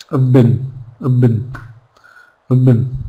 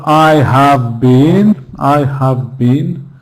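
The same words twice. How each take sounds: First: "I've been" as a short, weak "uv bin"; unstressed reduced form. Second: Slow, fully stressed "I have been"; wrongly unreduced form. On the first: Teacher drilling syllables that are not stressed, reduced "I've been". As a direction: say "I've been" small and quick, with no stress on either word. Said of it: "because they're not stressed syllables". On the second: Teacher showing students what not to say, over-full "I have been". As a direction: stretch "I", "have" and "been" as separate full words. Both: Shown as a demonstration.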